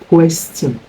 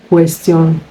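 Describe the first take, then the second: The two takes are said the same way.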